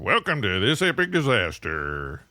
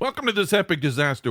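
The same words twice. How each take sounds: First: It is said in an exaggerated character voice. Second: It is said in a natural speaking voice.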